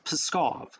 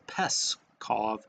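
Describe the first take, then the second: First: The P and S run together without a vowel. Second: A vowel is inserted between the P and S. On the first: The speaker calls it right. "I guess it's Pskov. I'll say that faster from now on" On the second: The speaker calls it wrong. "Somebody got mad at me in the comments because I said Peskov"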